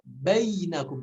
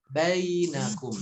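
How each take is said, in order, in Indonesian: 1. Bunyi 'ai' diucapkan keras, tidak dilunakkan. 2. Bunyi 'ai' diucapkan lembut dan halus. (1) "Pengucapannya tidak bainakum tidak" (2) "Lin adalah lem, lembut"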